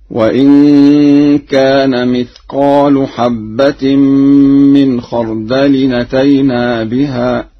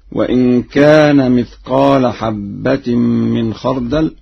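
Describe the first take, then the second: First: Slow measured recitation, "مثقال" ending in u; Warsh reading. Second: Said in the usual way. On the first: Shown as a demonstration. Teacher recites Warsh's version, "مثقال" as mithqaalu. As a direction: draw it out, saying "مثقال" as mithqaalu. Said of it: "مثقال برفع اللام، هكذا". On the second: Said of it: "وأما قوله تعالى".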